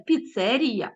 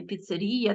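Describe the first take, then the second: First: Піцерія stressed on -ці-; correct stress. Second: Піцерія stressed on -рі-, the mistake; wrong stress. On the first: Teacher modelling the correct stress in піцерія. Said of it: "піцерія, а не піцерія". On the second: Teacher showing the wrong stress in піцерія. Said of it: "а не піцерія". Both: Shown as a demonstration.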